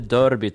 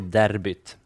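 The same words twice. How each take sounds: First: The first vowel is an ö sound. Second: The first vowel is a Swedish e sound. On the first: The speaker calls it wrong. "Inte derbyt, även om det finns ett ö där" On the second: The speaker calls it right. "Jag gör så stenhårt på svenskt uttal"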